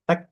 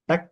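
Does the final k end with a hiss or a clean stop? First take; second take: hiss; hiss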